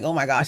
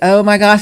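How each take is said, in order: First: It sounds sleepy and dopey. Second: It sounds happy and excited.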